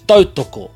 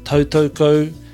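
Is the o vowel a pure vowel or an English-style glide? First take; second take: pure vowel; English glide. First: The o vowels are short, pure Māori vowels. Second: The o vowels glide like the English oh. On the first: The speaker calls it right. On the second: The speaker calls it wrong.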